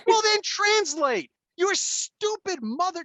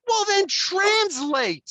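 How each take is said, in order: First: Slow, high, loud enraged demand; enraged father yelling at the daughter; retold yell. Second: Slow, high, loud snapping demand; angry father at the daughter; retold yell. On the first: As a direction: shout it slowly word by word. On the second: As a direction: bark it slowly at her. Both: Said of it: "I'm like".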